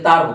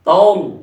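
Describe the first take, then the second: First: The r is thin and light. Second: The r is thick and heavy. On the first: The speaker calls it wrong. "অনেকে তার কয়, এটা কি মাইকের তার?" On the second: The speaker calls it right. "তাউল বলতে হবে"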